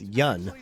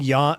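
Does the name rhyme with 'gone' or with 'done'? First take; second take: done; gone. First: The vowel rhymes with done. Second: The vowel rhymes with gone. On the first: The speaker calls it right. "You pronounce it yun. So you should rhyme it with done" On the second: The speaker calls it wrong. "rhyming yawn with gone is good, except you don't actually pronounce his name like that"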